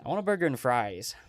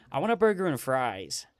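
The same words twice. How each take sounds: First: A second, milder American take; a lighter American accent. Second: American accent. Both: Shown as a demonstration. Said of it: "try and do it in my American accent".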